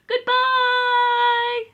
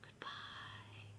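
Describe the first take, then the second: First: It is said loudly. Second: It is said quietly.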